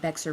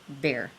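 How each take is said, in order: First: The name is said with an x sound. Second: The name is said like the word bear. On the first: The speaker calls it wrong. "This is actually not Bexar" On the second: The speaker calls it right. "it's pronounced bear"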